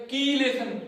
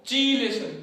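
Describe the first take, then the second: First: कीलेशन with a clear hard K, "kee"; correct pronunciation. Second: चीलेशन with a CH sound at the start; the rejected form चीलेशन, opening like "cheese"; wrong pronunciation. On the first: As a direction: say कीलेशन as "kee-lay-shun". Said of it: "इसका सही pronunciation होता है". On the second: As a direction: say चीलेशन as "chee-lay-shun". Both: Shown as a demonstration.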